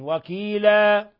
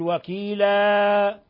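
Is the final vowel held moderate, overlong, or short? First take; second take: moderate; overlong. First: The final vowel is held for two beats. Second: The final vowel is stretched well beyond two beats. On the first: The speaker calls it right. "وإنما حركتين وكيلا" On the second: The speaker calls it wrong. "لا تقل وكيلا"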